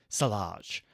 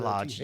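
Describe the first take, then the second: First: The name begins with an s sound. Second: The name begins with a th sound. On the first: The speaker calls it wrong. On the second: The speaker calls it right.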